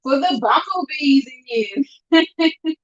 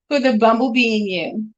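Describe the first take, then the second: First: Slow, higher sing-song call-out; slow teasing call to the bumblebee fans; playful drawn-out call. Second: Said in the usual way. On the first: Acted. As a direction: stretch it out like a playful shout-out.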